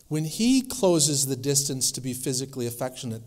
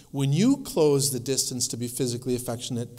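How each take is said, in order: First: "he" picked out as the one in control; stress on HE. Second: "you" picked out against "he"; stress on YOU. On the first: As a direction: lean on "he", contrasting with "you". Contrast of he and you. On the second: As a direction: lean on "you" as the contrast. Contrast of you and he. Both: Shown as a demonstration.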